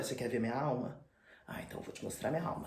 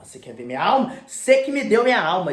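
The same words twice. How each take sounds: First: Soft, threatening half-whisper; menacing hush. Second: Louder, rising accusation; angry outburst. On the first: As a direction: lean in and breathe the threat. Dorian menacing Basil. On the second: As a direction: throw it back at him loudly. Dorian lashing out. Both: Retold or imitated.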